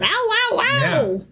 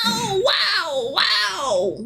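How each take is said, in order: First: It is said in his normal voice. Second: It is said like a breathy old man.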